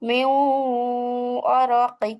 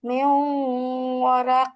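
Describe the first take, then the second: First: The last word ends in a short vowel. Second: The last word ends in a consonant. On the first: The reading continues past this word. "এখানে মিন না বলে বলবো মিউ" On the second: The reading stops at this word. "আর থামলে হবে"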